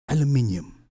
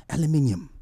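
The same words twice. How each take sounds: No difference in how they are said.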